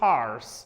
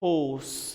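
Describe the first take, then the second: First: It is said in an American accent. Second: It is said in a British accent. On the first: "If it is American, it's horse" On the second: "And if it is Britisher, it is horse"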